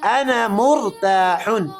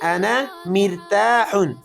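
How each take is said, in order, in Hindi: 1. दूसरे शब्द का पहला स्वर 'u' की आवाज़ है। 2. दूसरे शब्द का पहला स्वर 'i' की आवाज़ है। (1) "मीम पर पेशे जेर नहीं है" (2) "ये गलत जुमला है"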